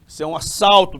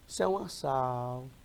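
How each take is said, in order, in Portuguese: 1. É falado com um sotaque paulistano apressado. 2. É falado com um sotaque baiano lento e relaxado. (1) "E o assaltante paulista?" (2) "O baiano já é mais leve"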